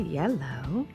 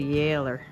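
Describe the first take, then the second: First: The word ends with an 'oh' sound. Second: The word ends with an 'er' sound. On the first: This is the usual form elsewhere. "we don't say yellow" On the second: This is the local Ottawa form. "If you're from Ottawa like me, ... We say yeller"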